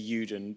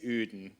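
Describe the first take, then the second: First: The name is pronounced the English way. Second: The name is pronounced the Dutch way. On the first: "Most people in the U K say Uden" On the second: "in Holland they say Uden"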